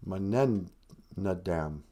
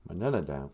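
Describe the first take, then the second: First: "Mananadam" drawn out slowly, low and soft; sounding out. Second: Said in the usual way. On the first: Shown as a demonstration. Storyteller working out a misspelled word, "Mananadam" slowly sounded out. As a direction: stretch "Mananadam" syllable by syllable. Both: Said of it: "I got one too many E's there".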